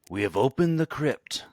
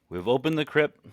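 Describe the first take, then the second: First: It is said in a spooky voice. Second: It is said in his normal voice.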